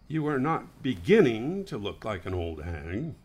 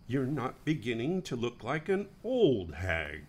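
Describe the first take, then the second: First: The word beginning carries strong emphasis. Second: The word beginning carries no special emphasis.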